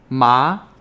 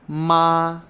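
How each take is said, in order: First: The pitch rises from low to high. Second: The pitch stays level and held. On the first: "Second tone" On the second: "That's the first tone also"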